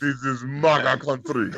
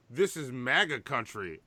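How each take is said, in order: First: Put-on light Nigerian accent; a touch of Nigerian accent. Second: Put-on Nigerian accent. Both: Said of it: "I said in a Nigerian accent".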